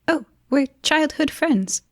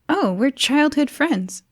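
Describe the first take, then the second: First: It is said in a choppy, staccato voice. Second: It is said in a smooth, normal voice.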